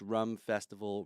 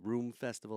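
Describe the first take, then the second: First: The first word has a short 'uh' vowel. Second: The first word has a long 'oo' vowel.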